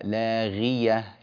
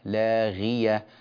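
No difference in how they are said.

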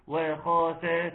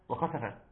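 First: Each letter carries a full, separate short vowel. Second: The short vowels are rushed and clipped together. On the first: The speaker calls it right. "واو مفتوحه و، خ مفتوحه خ، سين مفتوحه س، ف مفتوحه ف" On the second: The speaker calls it wrong. "لان ده اسمه اختلاس"

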